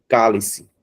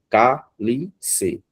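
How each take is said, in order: First: Said in the usual way. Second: "Cálice" broken into cá, li, ce; syllable by syllable. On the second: Shown as a demonstration. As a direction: separate the beats of "Cálice", cá as the strong syllable. ("Cálice" separado em cá-li-ce, com cá forte) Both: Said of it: "O K é mais forte".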